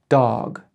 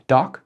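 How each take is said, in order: First: Dog with a stretched long vowel; dog, drawn out at the end. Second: Doc with a clipped short vowel; Doc, quick and stopped. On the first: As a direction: hold the o in dog longer. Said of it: "half the size of dog". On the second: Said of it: "doc is half the size of". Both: Shown as a demonstration.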